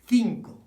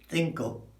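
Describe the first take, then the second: First: The first vowel sounds like in 'beat'. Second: The first vowel sounds like in 'bit'. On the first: The speaker calls it right. "It's cinco" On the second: The speaker calls it wrong. "Five is not cinco"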